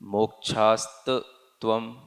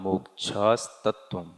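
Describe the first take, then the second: First: The break falls after the t sound. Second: The break falls after the s sound. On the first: The speaker calls it wrong. "ऐसा कोई पढ़े तो वो गलत कहलाएगा।" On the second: The speaker calls it right. "तो मोक्षास यहाँ पर ये पद पूरा होता है।"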